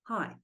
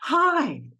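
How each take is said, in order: First: It is flat, monotone and disengaged. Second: It is warm and eager, reaching outward. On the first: The person is holding back from engaging. "for nine, we greet you will be say hi" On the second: The person is reaching out to connect. "for two is hi, coming to your face, almost trying to hug you"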